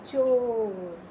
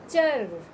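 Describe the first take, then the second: First: चोर read with a clear ओ; name चोर for the class; word reading. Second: चर called out louder; name चर clearly; loud word reading. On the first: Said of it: "ओ की मात्रा लगा दी". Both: Shown as a demonstration.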